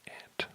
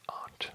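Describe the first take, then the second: First: The vowel is the flat 'a' of cat. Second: The vowel is the open 'ah' of father. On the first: This is how people in the speaker's region say it. "in my part of the world, most people say ant" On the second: This is how many other speakers say it. "A lot of people pronounce it aunt, just fine"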